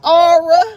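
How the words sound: The letter is drawn out into two syllables, 'aura'. This is how a former teacher said the letter. "She said aura"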